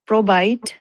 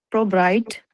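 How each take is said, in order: Both takes have the same delivery.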